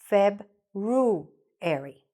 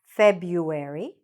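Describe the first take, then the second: First: It is said with an R after the B. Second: It is said without an R after the B. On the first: "with the R sound"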